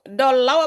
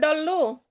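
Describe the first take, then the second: First: The vowel glides like au. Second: The vowel is a plain u. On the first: The speaker calls it wrong. "terdengar sekali agak aneh" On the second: The speaker calls it right. "Dulu seharusnya"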